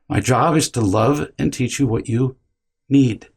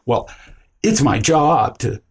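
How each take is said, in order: First: It sounds calm, with no urgency. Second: It sounds defensive and urgent.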